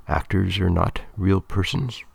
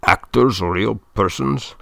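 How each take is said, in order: First: Said in the usual way. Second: Put-on director's German-accented incredulous question. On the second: A narrator's reading. Director scoffing at Mister Lopat's question, German accent. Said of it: "he says in his German accent".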